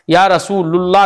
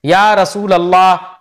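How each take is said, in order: First: "रसूलुल्लाह" with a u linking into Allah; wrong u ending. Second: "रसूल अल्लाह" with an a linking into Allah; correct a ending. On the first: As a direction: say "रसूलुल्लाह" as Rasoo-lul-laah. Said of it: "नहीं पढ़ेंगे अब हम". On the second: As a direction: say "रसूल अल्लाह" as Rasoo-lal-laah. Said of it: "ध्यान में रखना". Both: Shown as a demonstration.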